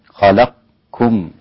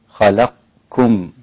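The two takes are said the same way.

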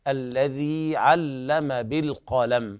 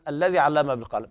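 First: The final vowel of the first word is long. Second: The final vowel of the first word is short. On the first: The speaker calls it right. "فالياء مدية تمد بمقدار حركتين، فنقول" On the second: The speaker calls it wrong. "بعض الناس يقرأ لحنا الذي علم بالقلم بدون مد"

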